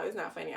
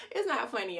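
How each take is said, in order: First: Said in the usual way. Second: Emphatic. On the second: Real, not acted.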